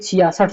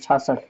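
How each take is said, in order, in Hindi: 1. यह शब्द तीन अक्षरों में बोला जाता है। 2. यह शब्द दो अक्षरों में बोला जाता है। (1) "ये छियासठ सही है" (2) "छाछठ ऐसे बोलेंगे, तो ये गलत हो जाएगा"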